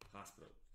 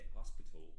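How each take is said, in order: First: It is said with an American accent. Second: It is said with a British-style accent.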